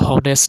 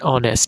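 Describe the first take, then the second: First: It begins with an h sound. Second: It begins with a vowel sound. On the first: The speaker calls it wrong. "আমরা কিন্তু হনেস্ট বলি না" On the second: The speaker calls it right. "আমরা বলি কি an অনেস্ট"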